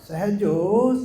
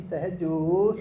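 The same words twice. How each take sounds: First: The name is called very loudly. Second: The name is called at normal loudness.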